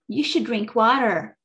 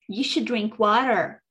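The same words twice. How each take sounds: First: It is said in an American accent. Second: The same.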